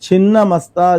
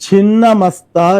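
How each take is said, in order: Both takes have the same delivery.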